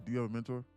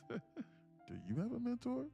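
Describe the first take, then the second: First: It is asked plainly, without confusion. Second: It is asked in a really confused voice. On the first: The speaker calls it wrong. "I don't read it as though" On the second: The speaker calls it right. "Like you're really confused and asking somebody"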